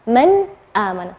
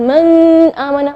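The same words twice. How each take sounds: First: The n is pronounced clearly and distinctly. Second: The n is blurred into the next sound. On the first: The speaker calls it right. "Seperti itu cara membacanya" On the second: The speaker calls it wrong.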